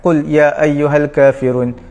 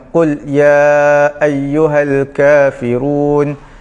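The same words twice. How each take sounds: First: The vowel of 'ya' is held two beats. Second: The vowel of 'ya' is held four beats. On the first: It follows another school's way of reciting. "dua harakat" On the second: It follows one school's way of reciting. "empat harakat mengikut cara bacaan daripada Imam Asy-Syatibi"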